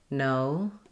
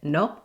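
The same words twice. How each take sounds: First: The vowel glides as the lips close slightly. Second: The vowel is short and stays steady. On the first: The speaker calls it right. "in English we say no" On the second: The speaker calls it wrong. "just that simple little o"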